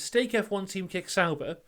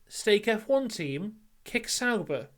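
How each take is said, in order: First: It is said as one unbroken phrase. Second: There is a pause after 'Team'.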